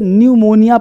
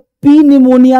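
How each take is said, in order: First: No p sound is heard at the start. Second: A p sound is heard at the start. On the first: The speaker calls it right. "N तथा S से पहले पी silent रहता है" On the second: The speaker calls it wrong. "नहीं पढ़ेंगे"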